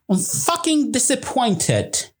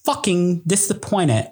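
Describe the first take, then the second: First: It is said in a put-on British accent. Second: It is said in the speaker's own American accent.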